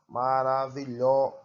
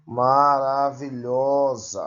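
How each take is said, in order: First: Said in the usual way. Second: Maravilhosa said slowly, with a louder, drawn-out lho; stressed syllable shown. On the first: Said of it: "sílaba tônica". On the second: Shown as a demonstration. Teacher showing the class the tonic syllable, slow and stressed. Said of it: "pronunciadas com mais intensidade recebem o nome de tônicas".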